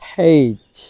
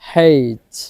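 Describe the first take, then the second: Both takes have the same delivery.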